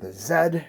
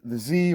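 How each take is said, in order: First: The letter is said as zed, English style. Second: The letter is said as zee, American style.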